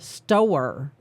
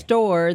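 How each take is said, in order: First: The word is said as two syllables. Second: The word is said as one syllable. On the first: The speaker calls it wrong. "that's like a two syllable word" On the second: The speaker calls it right. "store is a one syllable word"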